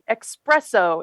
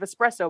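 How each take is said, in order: First: It begins with an eks sound, like express. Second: It begins with a plain es sound. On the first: "the espresso instead of espresso because express means fast" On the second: "instead of espresso"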